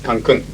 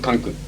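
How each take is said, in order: First: The stress is on the second syllable. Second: The stress is on the first syllable. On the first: The speaker calls it right. "It's Cancun" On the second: The speaker calls it wrong. "It's not Cancun"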